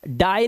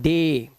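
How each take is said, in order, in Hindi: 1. स्वर की ध्वनि 'eye' जैसी है। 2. स्वर की ध्वनि 'ay' जैसी है। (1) "इसे डाई नहीं पढ़ते" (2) "इसे पढ़ते हैं डे"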